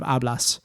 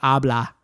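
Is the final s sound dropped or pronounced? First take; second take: pronounced; dropped. First: The final s sound is pronounced. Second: The final s sound is dropped. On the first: "instead of hablas" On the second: "they drop their s's a lot"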